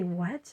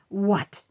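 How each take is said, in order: First: The word is said in a mild, polite tone. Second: The word is said in a sharp, rude tone. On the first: The speaker calls it right. "it doesn't sound so rude" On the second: The speaker calls it wrong. "that would get me in trouble"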